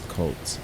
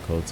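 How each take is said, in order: First: It is said with an L sound. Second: It is said without an L sound. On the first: The speaker calls it right. "It's Colt. Just make sure they just pronounce it as Colt" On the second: The speaker calls it wrong. "I keep saying Cote as well"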